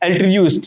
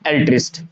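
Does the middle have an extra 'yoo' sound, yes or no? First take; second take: yes; no. First: The middle has an added 'yoo' sound. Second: The middle has only a short 'i' sound. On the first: The speaker calls it wrong. "इसको एल्ट्रियूस्ट कर देते हैं, ... pronunciation है वो wrong हो जाता है" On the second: The speaker calls it right. "तो यहां पर क्या होगा, एल्ट्रिस्ट होगा"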